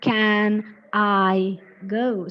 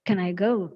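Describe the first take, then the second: First: 'Can I' is said slowly as separate words. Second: 'Can I' is run together quickly, stress on 'go'. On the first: The speaker calls it wrong. "It is not" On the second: The speaker calls it right. "it should be like"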